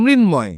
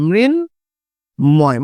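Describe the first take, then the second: First: মৃন্ময় said slowly, ম direct; মৃন্ময়: clear ম after ন; pronunciation demo. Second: মৃন্ময় dragged out very slowly, ম direct; মৃন্ময়: stretch every syllable; very slow pronunciation demo. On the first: (মৃন্ময় ধীরে উচ্চারণ) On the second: (অনেক ধীরে টেনে মৃন্ময় উচ্চারণ) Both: Shown as a demonstration. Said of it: "এই শব্দটার উচ্চারণ কি হবে".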